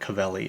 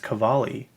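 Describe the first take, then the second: First: The second syllable has an 'eh' vowel. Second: The second syllable has an 'ah' vowel. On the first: The speaker calls it wrong. "why why would you say it that way? Like, that's not even how you say it" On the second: The speaker calls it right. "It's Cavalli. Doesn't it have an A?"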